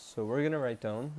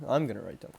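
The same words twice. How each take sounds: First: Said in the usual way. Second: I'm punched as a correction; stress on I'M. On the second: Real, not acted. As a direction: correct yourself, leaning on "I'm".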